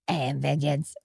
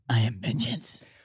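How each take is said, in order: First: The voice is pitched high and light. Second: The voice is pitched low and deep. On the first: "Maybe you go higher" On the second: "It must be hard to lower your voice"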